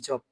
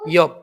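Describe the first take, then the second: First: The word begins with an English J sound. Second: The word begins with a Y sound. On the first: The speaker calls it wrong. "আমি নিজেও এখন বলতেছি জব" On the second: The speaker calls it right. "এটা কিন্তু ওয়াই এর মতো উচ্চারণ করে"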